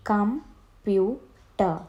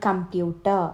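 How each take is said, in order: First: കമ്പ്യൂട്ടർ very slowly as "com, pu, ter"; three drawn-out beats with pauses in കമ്പ്യൂട്ടർ; split into syllables. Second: Said in the usual way. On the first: Shown as a demonstration. (കമ്പ്യൂട്ടർ മൂന്നായി മുറിച്ച്, "കം, പ്യൂ, ടർ") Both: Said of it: "three syllable words".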